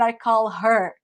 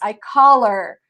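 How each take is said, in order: First: The h in 'her' is clearly pronounced. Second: The h in 'her' is dropped and linked. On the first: The speaker calls it wrong. "not I call her" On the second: The speaker calls it right. "It's I call her. You're going to take this kind of H here"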